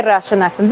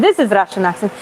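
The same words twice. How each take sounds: First: Said in the usual way. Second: Demonstrating a thick Russian accent; exaggerated Russian accent, pitch dipping. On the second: Shown as a demonstration. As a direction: put on a Russian accent to show it.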